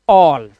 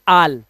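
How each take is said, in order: First: The vowel is a rounded aw sound. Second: The vowel is an open ah sound. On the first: The speaker calls it right. "ये A double L ऑल" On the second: The speaker calls it wrong. "ना कि आल"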